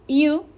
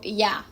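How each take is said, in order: First: The word is said in its full form. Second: The word is reduced to 'ya'.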